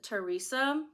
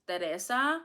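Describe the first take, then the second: First: The name is pronounced with English sounds. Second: The name is pronounced with Spanish sounds. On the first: "I think that's how you say it in English" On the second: "in Spanish it's Teresa"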